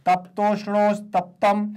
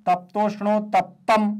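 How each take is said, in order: Both takes have the same delivery.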